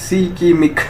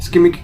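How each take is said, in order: First: The word begins with a 'shik' sound. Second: The word begins with a 'sk' sound. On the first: The speaker calls it right. "इसकी pronunciation थोड़ी सी different है" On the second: The speaker calls it wrong. "वो स्कीमिक नहीं"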